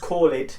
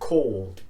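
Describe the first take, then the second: First: The word ends in an extra id syllable. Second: The word ends in a plain d sound. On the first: The speaker calls it wrong. "Not an id, but a D sound" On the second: The speaker calls it right. "it becomes called"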